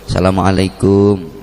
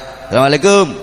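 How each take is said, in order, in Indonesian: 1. Diucapkan dengan nada lembut, rendah hati, dan sopan. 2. Diucapkan dengan nada santai dan tidak formal. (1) "dengan nada sopan, dengan nada tawadhu penuh etika" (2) "Nek karo kanca ya"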